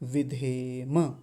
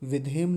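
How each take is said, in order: First: The word ends with a vowel after m. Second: The word ends on a bare m sound. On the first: The speaker calls it right. "विधेम ऐसा बोलेंगे" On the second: The speaker calls it wrong. "हलंत लगा देते हैं"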